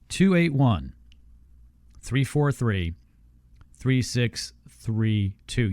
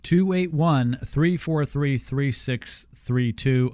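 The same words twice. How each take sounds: First: It is said more slowly. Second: It is said at normal speed.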